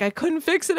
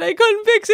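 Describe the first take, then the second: First: Whiny panic. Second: Louder whiny panic. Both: Retold or imitated. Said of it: "I was like".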